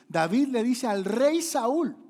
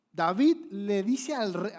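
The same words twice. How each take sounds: First: Slower, louder, much higher; slow climax. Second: Slow, loud and high; slow building. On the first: Preacher peaking the suspense to the congregation, slow and loud. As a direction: peak the build on each word. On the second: Preacher building suspense before David speaks, slow and loud. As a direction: stretch every word to build suspense. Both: Acted.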